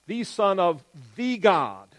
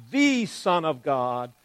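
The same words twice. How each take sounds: First: "the" in "of the God" slow and weighted; stress on the article. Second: Said in the usual way. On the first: Shown as a demonstration. Teacher showing the definite article, slow and deliberate. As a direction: press on "the" before "God". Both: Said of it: "Very definite".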